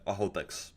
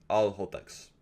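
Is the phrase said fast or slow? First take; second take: fast; slow. First: The phrase is said very quickly. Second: The phrase is said slowly and calmly.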